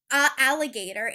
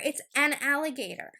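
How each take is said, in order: First: "a alligator", the a said as a plain uh before the vowel; wrong article. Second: "an" leaned on before alligator; correct article stressed. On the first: Teacher showing viewers the wrong form, a alligator. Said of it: "You can't say". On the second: Teacher correcting viewers, stressing an. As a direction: hit "an" to show the right form. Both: Shown as a demonstration.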